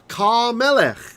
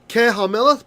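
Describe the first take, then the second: First: The h sound drops and the vowel merges. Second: The h sound of the article is pronounced.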